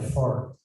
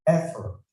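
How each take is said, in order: First: The stress is on the second syllable. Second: The stress is on the first syllable. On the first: The speaker calls it wrong. "you kasih panjang itu fortnya, bukan effort" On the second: The speaker calls it right. "harusnya effort"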